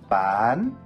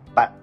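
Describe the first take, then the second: First: The word is said with a high rising tone. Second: The word is said with a heavy, clipped low tone. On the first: It means to sell. "싹성조" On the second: It means you or a friend. "낭성조로 발음을 하게 되면"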